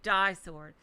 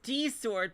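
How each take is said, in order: First: The first word sounds like the word die. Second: The first word sounds like the letter D. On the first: The speaker calls it wrong. "the way it's spelled sounds like die sword" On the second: The speaker calls it right. "no, it's D sword"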